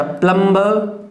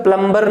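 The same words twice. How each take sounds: First: प्लम्बर with the b left silent, slow. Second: प्लम्बर with the b sounded; the mistaken b in प्लम्बर; wrong pronunciation. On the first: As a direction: say प्लम्बर slowly without any b sound. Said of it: "ब silent रहेगा". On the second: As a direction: say प्लम्बर quickly, pronouncing the b. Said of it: "प्लम्बर नहीं बोलेंगे". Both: Shown as a demonstration.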